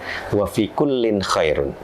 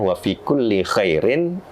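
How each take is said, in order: First: The phrase ends with the sound 'khairun'. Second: The phrase ends with the sound 'khairin'. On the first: In every believer there is goodness. The speaker calls it right. "itu yang benar" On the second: In every good deed, strive for what benefits you. The speaker calls it wrong. "saya bacanya"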